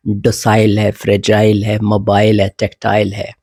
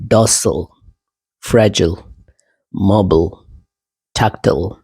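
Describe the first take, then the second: First: डोसाइल, फ्रेजाइल, मोबाइल, टैक्टाइल ending like "aisle"; British "-ile" endings. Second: डॉसल, फ्रेजिल, मोबाइल, टैक्टाइल ending in a reduced "l"; American pronunciation. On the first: Teacher lists more examples, British pattern pronunciation. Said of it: "और examples हैं". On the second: Teacher shows the changes Americans make, American pronunciation. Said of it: "American काफ़ी changes लाते हैं". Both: Shown as a demonstration.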